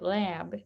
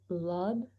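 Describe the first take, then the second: First: The first vowel is the American 'a'. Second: The first vowel is the British 'u'-like sound. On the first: This is the American pronunciation. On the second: This is the British pronunciation.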